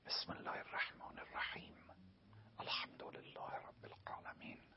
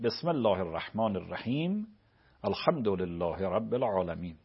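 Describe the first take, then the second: First: It is recited quietly, almost under the breath. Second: It is recited aloud in a loud voice.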